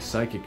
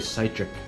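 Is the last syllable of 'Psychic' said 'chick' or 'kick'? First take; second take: kick; chick. First: The last syllable sounds like 'kick'. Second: The last syllable sounds like 'chick'. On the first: The speaker calls it right. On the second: The speaker calls it wrong.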